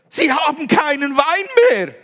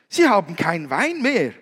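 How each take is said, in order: First: It is said with strong, insistent emphasis. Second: It is said plainly, without strong emphasis.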